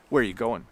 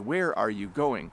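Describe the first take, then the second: First: 'Are' is gone and 'you' sounds like 'ya'. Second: Every word is said slowly and in full. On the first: "get rid of the word "are" completely" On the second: "if we said it very slowly and carefully"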